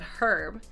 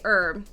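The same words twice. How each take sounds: First: The word begins with an H sound. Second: The word begins without an H sound. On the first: "instead of herb" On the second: "why Americans say herb"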